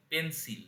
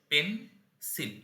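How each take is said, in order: First: Said in the usual way. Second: পেন, pause, সিল; syllable by syllable. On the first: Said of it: "একে যদি ভাঙি". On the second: Shown as a demonstration. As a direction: split it cleanly into পেন and সিল. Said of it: "একে যদি ভাঙি তাহলে উচ্চারণ হবে".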